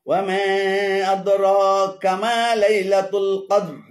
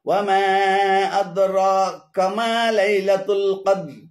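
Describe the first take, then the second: Both takes have the same delivery.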